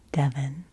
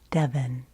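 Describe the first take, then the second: No difference in how they are said.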